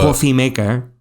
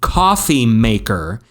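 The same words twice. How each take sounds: First: It is said quickly in a Spanish accent. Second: It is said in a plain accent.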